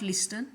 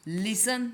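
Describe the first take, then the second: First: Listen with the t sounded, "lis-ten"; "listen" mispronounced with t; wrong pronunciation shown. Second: Listen said with silent t, "lisen"; "listen" clean, t dropped; correct pronunciation. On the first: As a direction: say listen with a clear t. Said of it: "not listen". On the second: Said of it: "इसका pronunciation हुआ". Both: Shown as a demonstration.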